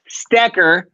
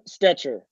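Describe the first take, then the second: First: The middle consonant is a k sound. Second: The middle consonant is a ch sound. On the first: The speaker calls it right. "a C H will work for a K, so it's Sam Stecker" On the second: The speaker calls it wrong. "That is the most common way to get it wrong"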